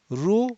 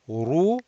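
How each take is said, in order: First: The r is light, without a raised tongue back. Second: The r is heavy, with the tongue back raised. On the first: The speaker calls it wrong. "no good" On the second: The speaker calls it right. "that's what is desired, heavy"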